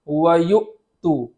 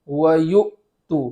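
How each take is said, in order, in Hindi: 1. Glottal stop रोका जाता है, जिससे आवाज़ बंद हो जाती है। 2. ग्लोटल स्टॉप रोका जाता है, जिससे आवाज़ बंद हो जाती है।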